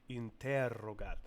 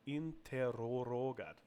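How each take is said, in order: First: The word has no extra r syllable inserted. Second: An extra r syllable is inserted in the middle. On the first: The speaker calls it right. "Okay, that's better" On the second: The speaker calls it wrong. "maybe too many of the R sounds"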